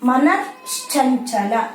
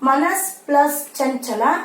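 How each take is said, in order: First: The words are joined, with an sh sound. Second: The words are separate, ending in an s sound.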